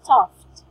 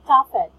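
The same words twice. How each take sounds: First: The ending sounds like a clear t. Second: The ending does not sound like a t. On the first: The speaker calls it right. "it should be pronounced as toughed" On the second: The speaker calls it wrong. "you cannot say toughed"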